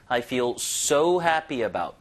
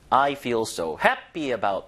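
First: "so" stretched and punched for emphasis; stress on so. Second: "happy" punched, the rest lower; stress on happy. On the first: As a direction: put the weight on "so" rather than "happy". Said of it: "강조를 하는 거니까". ("so"를 길게 강조) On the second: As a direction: put the weight on "happy" instead of "so". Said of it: "보다는". ("happy"에 강세) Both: Shown as a demonstration.

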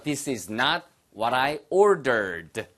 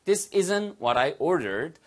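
First: Very slow, every word separate; slow unconTRACTed demo; slow full form. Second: Slow model with "isn't" contracted; slow contracted demo; slow contracted form. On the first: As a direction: spell out "is not" slowly. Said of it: "아까 나왔잖아요". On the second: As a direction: say "isn't" as one quick word. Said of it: "됐죠?". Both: Shown as a demonstration.

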